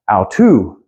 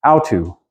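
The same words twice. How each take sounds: First: Au tu with the weight on tu; stress on second syllable. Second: Au tu with the weight on au; wrong stress on first syllable. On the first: Teacher modelling the correct Greek stress, tu stressed. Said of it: "accent on the second syllable". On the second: Teacher showing students the wrong stress, au stressed. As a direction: hit au, let tu fall away. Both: Shown as a demonstration.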